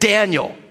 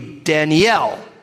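First: The stress is on the first syllable. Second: The stress is on the last syllable.

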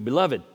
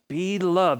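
First: It is said smoothly as one word. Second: It is said as two separate words.

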